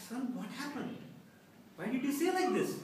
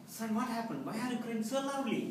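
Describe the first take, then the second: First: High-pitched imitated tearful plea; mock sobbing mother. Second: Imitated tender concern, high-pitched; loving mother. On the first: Mother questioning her son afterwards, sobbing voice. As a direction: wail the question, lightly tearful. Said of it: "asked me in a sobbing voice". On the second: Mom rushing to her crying son, lovingly. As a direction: ask as a worried, loving mom. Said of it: "asked me lovingly".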